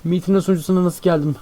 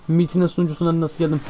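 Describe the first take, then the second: No difference in how they are said.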